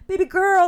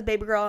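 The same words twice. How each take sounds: First: Put-on louder, higher "Baby girl" in a roommate voice; imitating roommate. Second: Said in the usual way. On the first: Quoting the other roommate, loud and high. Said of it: "our other roommate is like". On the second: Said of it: "she says".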